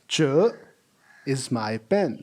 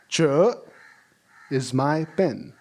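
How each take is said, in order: The two takes are said the same way.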